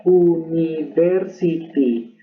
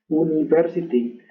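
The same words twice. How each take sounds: First: "University" slowly as oo-nee-ver-see-tee; drawn-out Spanish reading of "University"; Spanish pronunciation, syllabified. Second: "university" as oo-nee-ver-see-tee in one go; connected Spanish-style "university"; Spanish pronunciation, joined up. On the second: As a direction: run the Spanish syllables of "university" together. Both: Shown as a demonstration. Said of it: "usa el español primero".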